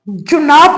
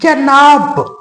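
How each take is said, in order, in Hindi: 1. पहले अक्षर में स्वर 'u' है। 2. पहले अक्षर में स्वर 'a' है। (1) "जुनाब नहीं"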